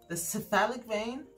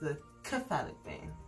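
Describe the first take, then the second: First: Cephalic begins with an S sound. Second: Cephalic begins with a K sound. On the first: This is the American pronunciation. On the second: This is the British pronunciation.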